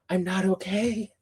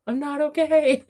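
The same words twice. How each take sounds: First: Slow, contained fangirl overwhelm; barely keeping it together over a book. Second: High-pitched squeal of fangirl overwhelm; excitement spilling over into a high cry; giddy overwhelm. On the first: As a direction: hold the excitement in, drawing it out. Overwhelmed about awaited third book. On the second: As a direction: let it climb high, about to burst out laughing. Repeats it, escalating into laughter. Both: Real, not acted.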